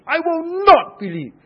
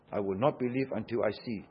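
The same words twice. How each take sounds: First: NOT shouted high, loud and long; loud, high-pitched refusal, slamming the word NOT; emphatic. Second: Said in the usual way. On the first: Acted. Preacher quotes Thomas insisting to the disciples, emphatic. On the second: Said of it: "and emphatically insisted".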